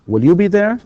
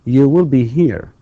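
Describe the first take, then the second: First: Will you be there rising high and louder on be; teacher's drilled question; question rise. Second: You will be here said slowly, will stressed, falling; deliberate teacher statement; slow model statement. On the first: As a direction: lift it into a question. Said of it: "question drill". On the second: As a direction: spell it out for the class. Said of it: "model statement drill". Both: Shown as a demonstration.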